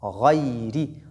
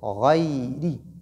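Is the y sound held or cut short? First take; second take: held; held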